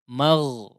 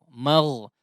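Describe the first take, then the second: The two takes are said the same way.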